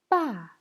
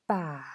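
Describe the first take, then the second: First: The pitch falls sharply from high. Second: The pitch dips low, then rises again. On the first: "Quatrième ton" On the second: "Troisième ton"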